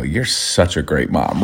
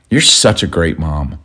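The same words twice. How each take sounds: First: Low, soft and slow, dripping sarcasm; sarcastic. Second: Slow, low sarcastic jab. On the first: Husband retelling his snide reply to his wife, sarcastic. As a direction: murmur it as a dig. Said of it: "And I go". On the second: Husband mocking wife's nagging about his snack, sarcastic. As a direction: say it dry, to needle her. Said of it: "here's the context and the tone". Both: Retold or imitated.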